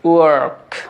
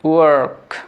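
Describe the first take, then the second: First: An American accent with the r sound pronounced. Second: An American accent with the r sound pronounced.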